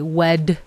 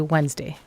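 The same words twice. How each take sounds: First: The middle D sound is clearly pronounced. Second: The middle D sound is left out. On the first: The speaker calls it wrong. "you don't say Wednesday" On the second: The speaker calls it right. "You say Wednesday. You kind of ignore the D"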